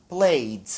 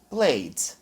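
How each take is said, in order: First: The ending is only a short d sound. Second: The ending is only a short d sound.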